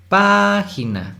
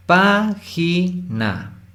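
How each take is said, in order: First: "página" with PA long, high and strong; acento en PA. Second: "Página" very slowly, split into pá-gi-na; high first syllable, "Página" broken syllable by syllable; separado en sílabas. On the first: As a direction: stretch the stressed PA in "página", slowly. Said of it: "Pa es la sílaba tónica". ("página" alargando y subiendo la sílaba PA) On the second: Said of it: "De estas tres sílabas". ("Página" muy lento, sílaba por sílaba) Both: Shown as a demonstration.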